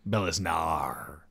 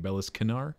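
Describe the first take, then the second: First: The K sound is left out of the name. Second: The K sound is pronounced in the name. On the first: "I assume the K is silent" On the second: "It could be Beliscanar"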